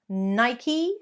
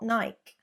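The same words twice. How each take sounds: First: The word has two syllables with a long E. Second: The word is squeezed into one syllable. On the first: The speaker calls it right. "Two syllables, not one. Elongate the E" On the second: The speaker calls it wrong. "not Nike"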